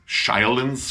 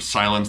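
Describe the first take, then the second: First: The vowels are distorted and exaggerated. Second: The word is said with a plain vowel. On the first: "it's just hammed up" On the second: "instead of silence"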